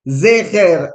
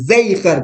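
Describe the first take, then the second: First: The first vowel is a short plain 'e'. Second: The first vowel is a longer 'ei' sound. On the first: "esa es la primera parte, que sería zeher" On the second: "la E, ... Zeijer, con la Yud en el medio"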